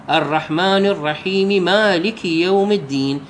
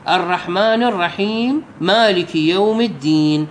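First: "الرحيمِ مالك" linked with a kasra; teacher runs "الرحيم" into "مالك" on an i vowel; joining with a vowel. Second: "الرحيمْ مالك" with a silent held m; teacher joins "الرحيم" to "مالك" on a silent m; joining on a silent letter. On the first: Showing students the vowel-linked reading. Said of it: "أوصله بالحركة". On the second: Showing students the disfavored silent join. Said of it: "أقرأ الميم مال الرحيم بالسكون". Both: Shown as a demonstration.

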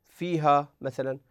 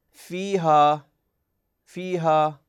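First: Said in the usual way. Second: فيها with both long vowels held two beats each; natural two-beat vowel length. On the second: Shown as a demonstration. (فيها بمدّ طبيعي حركتين في كل مدّ) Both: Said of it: "لو تلاحظون في كلمة فيها".

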